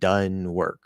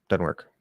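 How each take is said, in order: First: It is said slowly with the Z sound dropped. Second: It is said fast and loosely, sounds reduced. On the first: The speaker calls it wrong. "If you're speaking slowly and clearly, you cannot drop the Z" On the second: The speaker calls it right. "because we're speaking faster"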